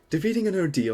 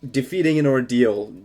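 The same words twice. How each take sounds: First: It is read in a put-on character voice. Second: It is read in the speaker's normal voice.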